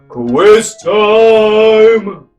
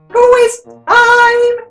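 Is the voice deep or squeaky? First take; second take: deep; squeaky. First: It is shouted in a big, giant-like voice. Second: It is said in a small, mouse-like voice.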